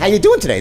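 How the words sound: The greeting sounds warm and genuinely interested. The speaker really wants to know the answer. The speaker calls it right. "This is tonality. He really wants to know. He actually cares"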